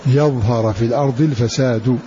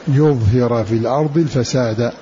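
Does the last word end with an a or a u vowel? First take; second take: u; a. First: It begins with ya and ends in fasadu. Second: It begins with yu and ends in fasada. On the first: "فتح الياء ورفع الدال" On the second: "بضم الياء وكسرها والفساد بالنصب"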